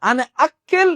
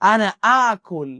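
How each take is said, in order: First: The second word is said 'akkel', ending in 'el'. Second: The second word is said 'akul', ending in 'ul'. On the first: The speaker calls it wrong. "আজকে থেকে আনা আক্কেল আর বলবেন না।" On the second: The speaker calls it right. "আনা আকুল অর্থ আমি খাই।"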